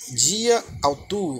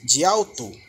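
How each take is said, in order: First: Both words are said separately, keeping the final vowel. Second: The words run together, dropping the first final vowel. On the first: The speaker calls it wrong. "ela não vai ser dita dia autu" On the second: The speaker calls it right. "vai ser de alto, de alto junto"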